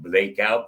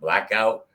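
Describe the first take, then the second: First: The first vowel is a long 'ay' sound. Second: The first vowel is a short 'a' sound. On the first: This is how the singer says the title. The speaker calls it wrong. "It sounds more like Blake Out" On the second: This is how the title should sound. The speaker calls it right. "instead of Blackout"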